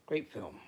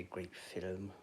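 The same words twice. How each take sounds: First: "film" as one clean syllable, no vowel before the m; film said right. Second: "film" stretched into two syllables, "fil-um"; film said wrong. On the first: Correcting himself for his viewers, "film" in one clean syllable. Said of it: "Gonna say film then". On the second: To his stream viewers, fumbling "film" as a two-syllable "filum". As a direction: say "film" as "filum", with an extra vowel before the m. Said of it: "Get that all wrong". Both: Shown as a demonstration.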